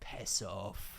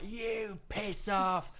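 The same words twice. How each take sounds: First: Low, quiet Scottish dismissal; retold Scottish brush-off, dropped low; Scottish accent. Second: High, drawn-out mock outburst; re-enacted angry retort, pitched up and very slow; retold losing it. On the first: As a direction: imitate a Scottish woman, soft and low. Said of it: "in a Scottish accent". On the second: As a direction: drag it out as an indignant comeback. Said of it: "lost it at her".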